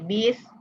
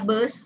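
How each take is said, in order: First: The vowel is said like 'i'. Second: The vowel is said like 'u'. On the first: This is how Javanese speakers usually say it. "orang Jawa biasanya bis" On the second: This is how Sundanese speakers usually say it. "orang Sunda bus"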